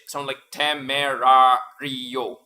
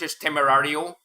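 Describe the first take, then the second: First: Each syllable is pronounced separately and fully. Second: The syllables run together in English style. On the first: "if you try to pronounce it like per syllable" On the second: "If you if you try to pronounce it English"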